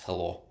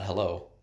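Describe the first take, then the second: First: The word is said with a Russian accent. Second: The word is said with an English accent. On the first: "it's hello. Because they're using their their sounds" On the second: "it's not hello"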